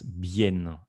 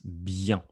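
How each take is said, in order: First: It is pronounced like the Spanish word. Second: It is pronounced with the French sound. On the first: The speaker calls it wrong. "No es bien" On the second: The speaker calls it right. "es bien"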